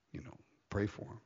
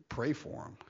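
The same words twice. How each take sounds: First: Said in the usual way. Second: Hushed, breathy plea to pray; whispered Pray for 'em. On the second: Real, not acted. Urging prayer for wrongdoers.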